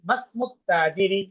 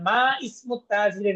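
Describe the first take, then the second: First: Ma runs straight into smu as masmu. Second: Ma and ismu are said as separate words. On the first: The speaker calls it right. "বলছি মাসমুত তাজিরি" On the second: The speaker calls it wrong. "মা ইসমুত তাজিরি না বলে"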